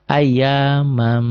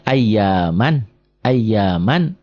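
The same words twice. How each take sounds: First: Ayyamam ending in a hummed m; slow Ayyamam, the n turned into a held m; merged tanwin. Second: Ayyaman slowly, ending on a clear n; measured ayyaman with the tanwin n sounded; original reading. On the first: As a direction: model Ayyamam, closing on a long m. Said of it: "baca satu". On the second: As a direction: model ayyaman, closing firmly on n. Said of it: "Ini kan asalnya". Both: Shown as a demonstration.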